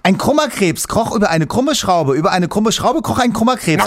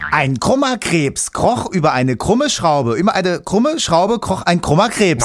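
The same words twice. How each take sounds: First: It is said at a faster pace. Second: It is said at a slower pace.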